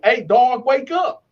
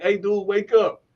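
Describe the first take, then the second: First: Raised, higher voice to rouse a sleeper; retold firm wake-up call. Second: Said in the usual way. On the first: Waking the snoring cellmate on a second try, raised voice. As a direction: imitate calling someone awake.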